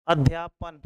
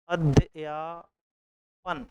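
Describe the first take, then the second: First: Said in the usual way. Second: Slow spelled-out word. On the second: Shown as a demonstration. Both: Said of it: "तो अध्यापन".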